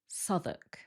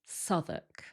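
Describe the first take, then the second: First: The W sound is left out. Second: The same.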